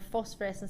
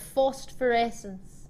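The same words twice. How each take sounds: First: The word is said without an extra t sound. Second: An extra t sound is inserted in the word. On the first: The speaker calls it right. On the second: The speaker calls it wrong.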